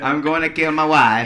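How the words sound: It is said in a Borat voice.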